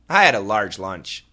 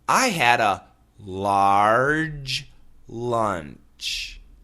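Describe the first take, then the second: First: The phrase is said quickly, words run together. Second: The phrase is said slowly, word by word. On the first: The speaker calls it right. "Say it quicker and quicker" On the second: The speaker calls it wrong. "nobody says"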